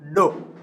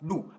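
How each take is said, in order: First: The syllable is said with a plain o vowel. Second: The syllable is said with an English vowel. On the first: The speaker calls it right. "this is o as a vowel, o. So we pronounce as do" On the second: The speaker calls it wrong. "Here in English, you can pronounce as do"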